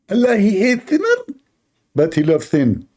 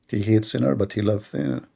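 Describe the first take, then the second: First: High mocking preacher voice; Zakir Naik impression. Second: Said in the usual way. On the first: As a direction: parody the cleric's pronouncement, pitched high. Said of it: "So Zakir". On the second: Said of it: "How that work?".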